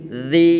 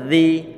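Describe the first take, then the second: The two takes are said the same way.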